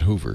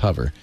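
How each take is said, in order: First: The vowel sounds like the one in 'move'. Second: The vowel sounds like the one in 'cover'. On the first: The speaker calls it wrong. "I guess you could pronounce that Hoover, couldn't you? ... but it's not" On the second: The speaker calls it right. "It's hover. / as in cover"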